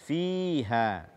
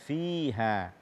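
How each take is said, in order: No difference in how they are said.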